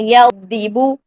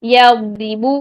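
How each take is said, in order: Both takes have the same delivery.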